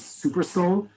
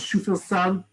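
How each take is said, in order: First: The name begins with an 's' sound. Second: The name begins with a 'sh' sound. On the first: The speaker calls it wrong. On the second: The speaker calls it right.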